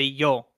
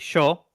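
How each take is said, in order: First: It starts with a 'y' sound. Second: It starts with a 'sh' sound.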